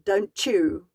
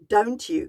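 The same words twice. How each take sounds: First: The t and y merge into a ch sound. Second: The t and y sounds stay separate. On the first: The speaker calls it wrong. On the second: The speaker calls it right.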